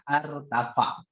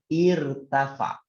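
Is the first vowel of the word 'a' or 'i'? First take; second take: a; i. First: The word begins with an 'a' vowel. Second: The word begins with an 'i' vowel. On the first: The speaker calls it wrong. "Tidak boleh bacanya artafa" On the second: The speaker calls it right. "Jadi bacanya irtafa"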